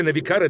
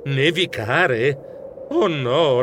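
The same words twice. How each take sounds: First: Said in the usual way. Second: Very slow, drawn-out "Nevicare?" in dismay; dismayed disbelief. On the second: Acted. Mouse realising snow may block his train, aghast. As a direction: stretch "Nevicare?" as the dread sinks in.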